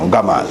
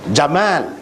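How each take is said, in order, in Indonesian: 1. Kata itu diawali dengan bunyi g keras. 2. Kata itu diawali dengan bunyi j. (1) "Gamal dia kata" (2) "kita kata Jamal"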